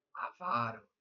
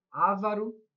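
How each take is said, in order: First: Avaro stressed on the middle syllable, a-VA-ro; right stress Avaro. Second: Ávaro stressed on the first syllable, Á-va-ro; wrong stress Ávaro. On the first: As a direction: say Avaro as a paroxytone. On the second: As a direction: say Ávaro as a proparoxytone. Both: Shown as a demonstration. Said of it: "ou avaro?".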